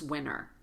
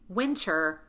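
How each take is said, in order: First: The T sound after the N is dropped. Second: The T sound after the N is pronounced. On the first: The speaker calls it wrong. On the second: The speaker calls it right.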